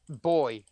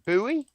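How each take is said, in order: First: The word is said the British way. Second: The word is said the American way.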